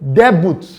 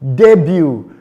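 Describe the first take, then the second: First: The final t sound is pronounced. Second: The final t sound is silent. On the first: The speaker calls it wrong. "Someone will say debut. No" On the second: The speaker calls it right. "it is debut. ... the t sound is not pronounced"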